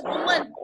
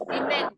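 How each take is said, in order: First: "woman" said as WUU-mun; singular pronunciation. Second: "women" said as WIM-in; plural pronunciation. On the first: Teacher contrasting singular with plural, "woman" as WUU-mun. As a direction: say "woman" with a rounded first vowel, WUU-mun. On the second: Teacher contrasting plural with singular, "women" as WIM-in. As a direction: say "women" with a short i first, WIM-in. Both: Shown as a demonstration. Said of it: "this is how pronunciation matters".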